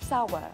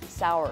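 First: British accent, with no r sound at the end. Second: American accent, with an r sound at the end. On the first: "I say it more with a British accent, which is sour" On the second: "You say it with an American accent, which is sour"

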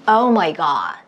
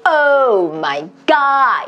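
First: It is said relaxed, carried easily on the breath. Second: It is said with exaggerated, overdone mouth movement.

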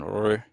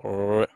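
First: The R is followed by an 'i' vowel. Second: The same.

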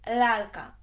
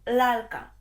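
No difference in how they are said.

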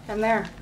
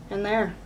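The two takes are said the same way.

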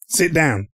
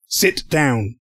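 First: It is barked out short and abruptly. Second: It is said slowly with careful enunciation. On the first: The speaker calls it wrong. "I was like, bam, bam!" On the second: The speaker calls it right. "I guess I really need to pronunciate it. Or enunciate it"

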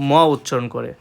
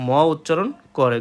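No difference in how they are said.

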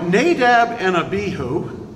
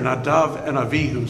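First: The names are said with a b sound. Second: The names are said with a v sound. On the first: "the English pronunciation" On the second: "if I revert back into Hebrew, their names are Nadav and Avihu"

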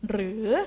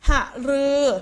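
First: The word is said as one syllable. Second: The word is said as two syllables. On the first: The speaker calls it right. "จะต้องอ่านเป็นเพียงหนึ่งพยางค์" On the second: The speaker calls it wrong. "เราไม่ได้อ่านว่าหะรือ"

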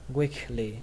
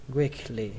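Both takes have the same delivery.

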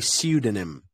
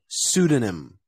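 First: The S is followed by a Y glide. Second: The S goes straight into an oo sound. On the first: "Or in Britain, they say pseudonym" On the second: "In America, we say pseudonym with no Y"

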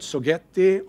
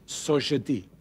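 First: The name is said with a non-French pronunciation. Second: The name is said with a French pronunciation. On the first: The speaker calls it wrong. "It is not" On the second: The speaker calls it right. "since we are a French company, it is pronounced"

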